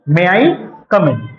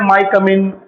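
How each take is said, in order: First: 'May' and 'I' are said as separate syllables. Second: 'May I' is merged into one syllable, 'my'. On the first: The speaker calls it right. "जो सही तरीके से बोलने का तरीका होता है" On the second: The speaker calls it wrong. "अजीब तरीके से बोलते हैं अलग"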